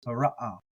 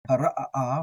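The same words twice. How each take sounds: First: "ha, ra, ah" with only one final "ah"; without extra uh. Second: "Ha, ra, ah, ah" with an extra beat before the last "ah". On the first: Teacher contrasting the common reading, no extra uh. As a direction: drop the extra beat in "ha, ra, ah". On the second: Teacher contrasting his own reading, extra uh. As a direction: double the final vowel in "Ha, ra, ah, ah". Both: Shown as a demonstration. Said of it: "I like to get that extra uh in there".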